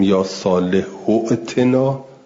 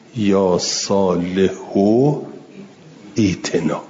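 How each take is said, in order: First: The words are joined, with a glottal stop. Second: The last word is cut off and starts 'ee'. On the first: The word is joined to the preceding word. "اولی افتاد دوم تلفظ میکنید" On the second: The word is read separately, not joined. "اگه وصل نکردید قطعش کردید"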